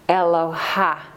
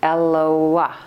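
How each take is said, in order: First: The h sound comes before the final vowel. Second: The final vowel comes before the h sound. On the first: The speaker calls it wrong. "we might say Eloha, right? ... But it's not" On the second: The speaker calls it right. "It's Eloah. ... That's how it's pronounced"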